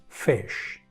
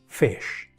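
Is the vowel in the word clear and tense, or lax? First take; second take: lax; lax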